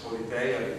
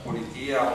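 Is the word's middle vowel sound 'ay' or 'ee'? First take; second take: ay; ee. First: The middle vowel is an 'ay' diphthong. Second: The middle vowel is a plain 'ee' sound. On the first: "I would pronounce it politeia ... the so-called Erasmian way" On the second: "I think the concept of politia"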